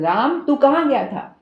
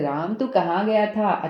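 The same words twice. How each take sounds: First: It is said in an angry tone. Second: It is said in a calm tone. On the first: The listener went somewhere they should not have. "गुस्से में बोला जा रहा है" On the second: The speaker already knows where the listener went. "अच्छा मुझे पता है"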